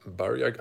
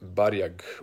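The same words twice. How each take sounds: First: The name is said with an English pronunciation. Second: The name is said with a Croatian pronunciation. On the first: "I'm trying to pronounce it in English" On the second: "would be like in Croatian"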